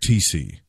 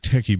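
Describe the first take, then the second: First: The surname sounds like the letters T C. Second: The surname sounds like the word techie. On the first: The speaker calls it right. "his last name is actually" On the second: The speaker calls it wrong. "I know I pronounced this guy's name wrong"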